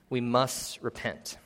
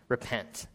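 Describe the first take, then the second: First: We must repent, each word slow and weighted; slow down and press every word of We must repent; slow emphatic repeat. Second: Said in the usual way. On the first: Shown as a demonstration. Preacher repeating his point to the congregation, slow and weighty.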